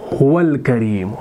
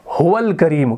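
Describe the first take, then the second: First: हुवल करीम read out slowly in careful Arabic; slow Arabic dictation. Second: Said in the usual way. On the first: Shown as a demonstration. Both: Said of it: "हम यहाँ पर लिखेंगे".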